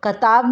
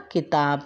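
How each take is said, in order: First: कताब said with a plain a, as katab; deliberately mispronounced कताब, missing the i vowel; wrong form. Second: किताब with a short i, kitab; किताब said clearly with the short i vowel; correct form. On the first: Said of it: "कताब नहीं होता है". (गलत उच्चारण कताब, बिना इ की मात्रा) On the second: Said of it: "छोटी की मात्रा लगा के बनेगा किताब". (सही उच्चारण किताब, छोटी इ की मात्रा के साथ) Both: Shown as a demonstration.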